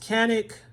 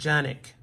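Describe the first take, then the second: First: The word begins with a hard k sound. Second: The word begins with a soft j sound. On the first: This is how English speakers say it. "in English pronounced Canik" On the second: This is how it is said in Turkey. "they pronounce it Janik"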